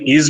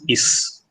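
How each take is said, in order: First: It is said with the standard English sound. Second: It is said with a substituted mother-tongue sound. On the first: The speaker calls it right. "they replace the English sound" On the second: The speaker calls it wrong. "with their mother tongue sounds"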